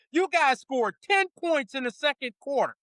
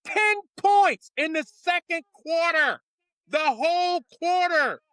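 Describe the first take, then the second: First: Said in the usual way. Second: Ten points a little higher and louder; louder repeat. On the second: Acted. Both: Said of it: "now I'm putting on my coach's voice".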